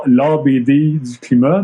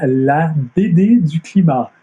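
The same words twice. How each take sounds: First: Montreal French pronunciation, drawn out slowly; Montreal accent. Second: Careful international French, higher and drawn out slowly; international French accent. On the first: Explaining why the series title's pun fails, in a Montreal accent. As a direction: say it in your own Montréalais accent. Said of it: "moi, avec mon accent montréalais". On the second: Showing how the pun should sound, in international French. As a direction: put on a proper international French accent, pitched up. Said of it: "avec un bon accent français international". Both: Shown as a demonstration.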